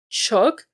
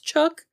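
First: Louder, rising echo of Chuck; Chuck? said in shock; stunned repetition. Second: Much higher, disbelieving Chuck; Chuck? pitched up in disbelief; incredulous repeat. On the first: Disbelieving echo of name. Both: Acted.

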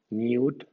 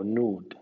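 First: "nude" said as nyood; British yoo in nude. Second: "nude" said as nood; no y-glide in "nude", just a long oo; American oo in nude. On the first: Teacher gives the UK version, "nude" as nyood. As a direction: put a y-glide after the n in "nude". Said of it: "era I U en Reino Unido". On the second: Teacher gives the American version, "nude" as nood. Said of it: "I U en América". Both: Shown as a demonstration.

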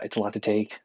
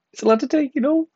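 First: Said in the usual way. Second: Much higher and louder, squeaked mock whine of "It's a lot to take"; squeaky repeat. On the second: Pasty Newfoundlander joking about summer heat, squeaky high whine. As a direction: squeak the line up high like a whiny kid.

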